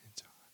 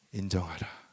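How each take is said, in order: First: Whisper. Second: Said in the usual way. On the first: Shown as a demonstration. Pastor echoing his slogan to the congregation in a whisper. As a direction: breathe 인정하라 as a soft unvoiced whisper.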